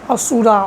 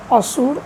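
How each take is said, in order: First: The word ends with a final vowel sound. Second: The word ends with a consonant sound. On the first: The speaker calls it wrong. "it is not pronounced as Asura" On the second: The speaker calls it right. "It is pronounced as Asur"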